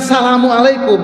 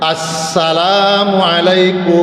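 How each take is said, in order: First: The opening 'as' sound is left off. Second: The opening 'as' sound is clearly said. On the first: The speaker calls it wrong. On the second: The speaker calls it right.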